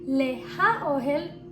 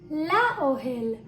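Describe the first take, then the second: First: The preposition and article are said separately, with h. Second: The preposition merges with the noun, without h. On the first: The speaker calls it wrong. "We don't say" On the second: The speaker calls it right. "we say"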